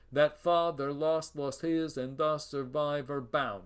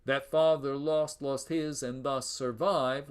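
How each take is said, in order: First: Measured iambs carried on through a sixth foot, "bound"; hexameter. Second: Even iambic beat, stopping on stressed "survive"; regular iambic line. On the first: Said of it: "That's a hexameter". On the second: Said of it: "would be regular". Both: Shown as a demonstration.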